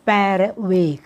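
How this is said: 'Per' is said with a Dutch pronunciation. The speaker calls it right. "แต่เขาจะออกเสียง"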